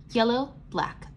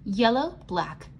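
Both takes have the same delivery.

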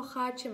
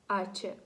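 First: "хаче" with an audible kh at the start; wrong, sounded h. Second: "аче" starting straight on the vowel a; silent h. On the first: Teacher showing what we don't say, audible kh. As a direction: say "хаче", wrongly voicing the silent letter as kh. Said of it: "ми не кажемо". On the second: Teacher showing what we do say, silent h. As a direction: say "аче" with no h sound at all. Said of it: "ми кажемо". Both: Shown as a demonstration.

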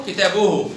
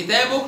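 First: كتابه said as "kitabuhu"; damma on haa. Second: كتابه said as "kitaboh"; sukun on haa. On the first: Teacher sums up haa, كتابه ending in -uhu. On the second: Teacher sums up haa, كتابه ending in -oh. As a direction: end كتابه on h. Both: Shown as a demonstration. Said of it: "نطقت هاء في المرتين".

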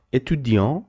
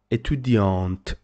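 First: Étudiant ending on a nasal vowel, no T; masculine form, silent T. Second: Étudiante with the final T pronounced; feminine form, sounded T. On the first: Teacher contrasting male and female student, final T silent. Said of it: "this is a male student". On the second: Teacher contrasting female with male student, final T sounded. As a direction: say étudiante, closing on a clear T. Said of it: "but when you say étudiante". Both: Shown as a demonstration.

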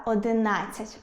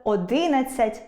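First: Одинадцять as одиНАДцять; одинадцять stressed on the third syllable; correct stress. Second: Одинадцять as оДИнадцять; одинадцять misstressed on the second syllable; wrong stress. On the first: Shown as a demonstration. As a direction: lean on НАД in одинадцять. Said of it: "точно варто сказати". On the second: Retold or imitated. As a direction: hit ДИ in одинадцять. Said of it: "мене аж дрижаки беруть, коли хтось каже".

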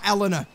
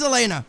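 First: "Eleanor" stressed on the first syllable; pronounced Eleanor. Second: "Elena" with stressed middle "LAY"; pronounced Elena. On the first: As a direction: say "Eleanor" as ELL-uh-nuh. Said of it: "Eleanor must be a different name". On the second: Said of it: "It must be the English pronunciation". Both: Shown as a demonstration.

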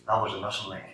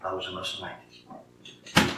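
First: Said in the usual way. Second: Repeated very slowly and softly, each word weighed; slow hushed repeat. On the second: Real, not acted. Preacher to congregation, repeating the lesson slowly and softly. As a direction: let it sink in, quiet and slow.

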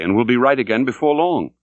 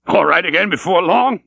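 First: Said in the usual way. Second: High, louder, laughing echo of long; mocking laugh. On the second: A narrator's reading. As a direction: throw the words back with scornful laughter. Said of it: "laughed the stranger".

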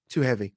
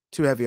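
First: Said in the usual way. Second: Too heavy, said again louder and firmer; Too heavy repeated with more weight. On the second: Real, not acted. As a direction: lean harder on Too heavy the second time. Repeats verdict with more force.

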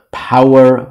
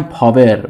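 First: "پاور" said slowly as English power, with a w; English pronunciation. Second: "پاور" said Persian-style as pa-ver, with a v; Persian pronunciation. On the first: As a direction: round the middle of "پاور" into an English w. (تلفظ انگلیسی «پاور» مثل power) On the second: (تلفظ فارسی «پاوِر» با صدای و) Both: Shown as a demonstration.

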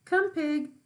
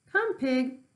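First: Higher, loud repeated call; a farmer coaxing a pig with slops. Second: High, loud farmer's call; a farmer coaxing a pig with slops. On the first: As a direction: call the pig once more, louder. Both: Acted.

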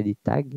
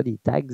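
First: « tags » dit « ta », sans g ni s audibles; à la française. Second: « tags » dit à l'anglaise, avec g et s sonores, « tagz ». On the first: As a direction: prononcer « tags » à la québécoise, juste « ta ». (« tags » prononcé « ta », g et s muets) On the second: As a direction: prononcer « tags » comme en anglais, g et s bien audibles. (« tags » prononcé à l'anglaise, « tagz ») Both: Shown as a demonstration. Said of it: "Pas des tags, mais des tags".

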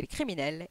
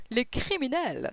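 First: Said in the usual way. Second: CRIMINELS drawn out slowly, falling at the end; exclaimed echo. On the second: A narrator's reading. Detective seizing on the inspector's word, CRIMINELS exclaimed. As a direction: pick up on CRIMINELS and stretch it out as an exclamation. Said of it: "s'exclama Holmes".

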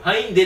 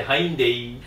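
First: はいんで cut short, said high and loud; wrong version. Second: はいんでいい said in full with a laugh; right version. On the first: Correcting the manager's mishearing, はいんで said short. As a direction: clip it to はいんで with no trailing いい. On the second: Correcting the manager, the full はいんでいい with a laugh. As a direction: stretch it out to はいんでいい. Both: Shown as a demonstration. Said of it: "じゃなくて".

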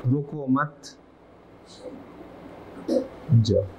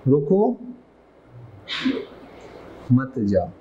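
First: Soft "रुको मत" run together, long stop, then "जाओ"; pause after मत. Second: "रुको" rising, long stop, then lower "मत जाओ"; pause after रुको. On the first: Teacher contrasting two meanings for students, pause after "मत". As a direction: join "रुको मत", break, then a separate low "जाओ". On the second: Teacher contrasting two meanings for students, pause after "रुको". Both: Shown as a demonstration. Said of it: "तो मतलब change".

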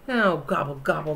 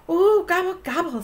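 First: A low, sulky gobble gobble; grumbling gobble. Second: High, bright-eyed ooh and gobble; excited gobble. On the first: Turkey grumbling after being caught by the child. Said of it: "grumbled Turkey". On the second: Turkey gobbling excitedly about the extra special prize. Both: Acted.

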